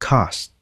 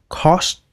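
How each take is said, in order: First: The vowel sounds between a and o. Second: The vowel sounds like a rounded o. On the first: The speaker calls it right. "Cái chữ O nó sẽ lai với lại cái chữ A nha" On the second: The speaker calls it wrong. "cũng không phải là cost"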